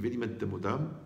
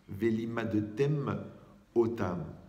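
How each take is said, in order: First: The two words run together as one. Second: The two words are kept clearly apart. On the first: The speaker calls it wrong. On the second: The speaker calls it right.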